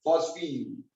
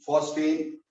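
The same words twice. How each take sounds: First: फॉस्फीन said with a long "een" ending; फॉस्फीन, stretch the final vowel to "een"; pet name. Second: फॉस्फेन said with a clear "en" ending; फॉस्फेन, ending on a short "ehn" sound; formal IUPAC name. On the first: Teacher giving students the affectionate name, फॉस्फीन with "een". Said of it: "पर प्यार से क्या बोलते हैं". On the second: Teacher giving students the official name, फॉस्फेन with "en". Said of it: "होता तो फॉस्फेन है". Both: Shown as a demonstration.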